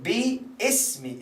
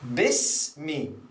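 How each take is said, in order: First: The first vowel is drawn out long. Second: The first vowel is short and joined. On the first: The speaker calls it wrong. "many people they say biismi. Like they, they pronounce like biismi, iqra biismi. That is wrong" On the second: The speaker calls it right. "you cancel the alif and you connect this with this. So it becomes bis"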